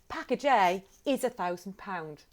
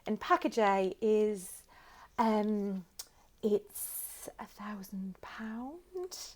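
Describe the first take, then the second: First: It is said smoothly and confidently. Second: It is said hesitantly with a filled pause.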